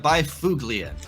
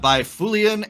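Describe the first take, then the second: First: The G in the name is hard. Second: The G in the name is silent. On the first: "I'm going to go with a hard G" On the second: "it was a silent G"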